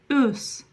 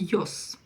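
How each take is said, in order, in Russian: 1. Гласный начинается без призвука «й». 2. Гласный начинается с призвука «й». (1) "Вы слышите именно Ö" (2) "вы же не слышите Ёс"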